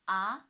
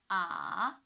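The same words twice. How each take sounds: First: The pitch rises from mid to high. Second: The pitch dips low, then rises. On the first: "the second tone from three to five" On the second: "From two to one to four"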